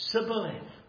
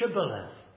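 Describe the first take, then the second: First: The word begins with an 's' sound. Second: The word begins with a 'sh' sound. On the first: The speaker is from Ephraim. The speaker calls it wrong. "They said Sibboleth" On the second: The speaker is not from Ephraim. The speaker calls it right. "say Shibboleth"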